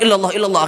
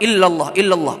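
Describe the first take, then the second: First: The phrase is said at a quickened pace. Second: The phrase is said at an unhurried pace.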